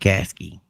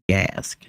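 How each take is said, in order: First: The name ends with an added ee vowel. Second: The name ends on the k sound. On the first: This is how the speaker's family says it. "I pronounce it Gasky" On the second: This is the original, proper form. "I think the proper pronunciation is Gask"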